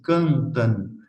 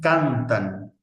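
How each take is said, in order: First: The vowels are strongly nasalized. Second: The vowels are plain and oral. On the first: The speaker calls it wrong. "No se dice" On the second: The speaker calls it right.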